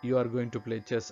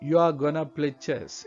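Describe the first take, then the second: First: 'Going to' is said in full. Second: 'Going to' is reduced to 'gonna'. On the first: "ಅನ್ನೋ ಅರ್ಥ ಅದು" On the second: "ಆಮ್ ಗೊನ ಅಂತ use ಮಾಡೋದ್ರಿಂದ"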